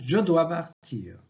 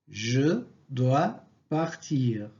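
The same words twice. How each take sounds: First: The vowel of 'je' is dropped. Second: The vowel of 'je' is kept. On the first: "À l'oral" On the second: "À l'écrit"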